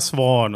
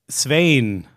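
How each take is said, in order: First: The vowel is a plain vowel without a glide. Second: The vowel glides like an 'ey' sound. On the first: The speaker calls it wrong. "ist beides falsch" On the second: The speaker calls it right. "ich meinte dieses Ey, Svein"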